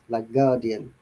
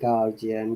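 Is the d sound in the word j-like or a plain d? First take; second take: plain d; j-like. First: The d is said as a plain d. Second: The d is said with a j-like sound. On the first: The speaker calls it right. "I pronounce the D as it is" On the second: The speaker calls it wrong. "People say sometimes"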